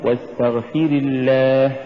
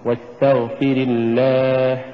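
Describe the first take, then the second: First: Chanted "واستغفر" with weight on fi-ri; mistaken feminine واستغفر. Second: Slow chanted "واستغفر", short ri into a long الله; masculine واستغفر. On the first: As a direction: recite واستغفر as if istaghfiri, then long الله. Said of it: "فلا نقل". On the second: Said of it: "فإذا قرأنا". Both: Shown as a demonstration.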